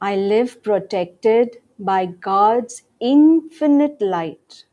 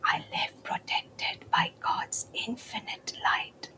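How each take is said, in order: First: It is said in a normal voice. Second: It is said in a whisper. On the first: "In a regular voice" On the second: "In a whisper now"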